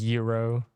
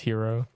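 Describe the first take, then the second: First: The word begins with a Y sound. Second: The word begins with an H sound. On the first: The speaker calls it right. "it's a silent G" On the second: The speaker calls it wrong. "It is not pronounced hero"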